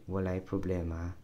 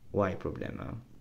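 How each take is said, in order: First: The first word is said in full. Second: The first word is shortened to one syllable. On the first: "this walay can get shortened" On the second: "From walay to y"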